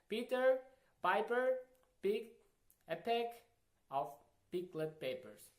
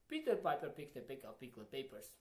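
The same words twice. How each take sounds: First: It is said at normal speed. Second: It is said fast.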